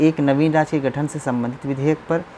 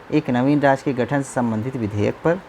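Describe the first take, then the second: No difference in how they are said.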